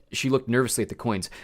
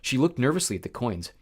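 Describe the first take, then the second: No difference in how they are said.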